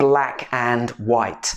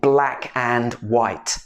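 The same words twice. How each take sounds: First: Each word is said separately and distinctly. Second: The same.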